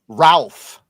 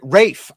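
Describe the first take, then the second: First: The name is said with an L, as Ralph. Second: The name is said without an L, as Rafe. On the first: The speaker calls it wrong. "he doesn't pronounce it Ralph" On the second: The speaker calls it right. "He pronounced it Rafe"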